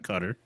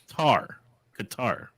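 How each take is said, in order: First: It sounds like cutter, with a short final syllable. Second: It ends like guitar, with a long final vowel. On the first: "not Cutter" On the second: "It sounds like Qatar"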